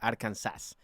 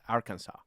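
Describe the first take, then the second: First: The name is read with Spanish pronunciation. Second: The name is read with English pronunciation. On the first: The speaker calls it wrong. "in Spanish, if you put if you s- it would be Arkansas, which that's not how it is" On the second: The speaker calls it right. "It's Arkansas"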